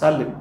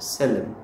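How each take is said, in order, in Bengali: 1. প্রথম স্বরধ্বনিটি একটি খোলা 'ah' ধ্বনি। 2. প্রথম স্বরধ্বনিটি একটি মধ্য 'eh' ধ্বনি। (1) "আমরা উচ্চারণ করি সালেম" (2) "কিন্তু মূল উচ্চারণটা হচ্ছে সেলেম"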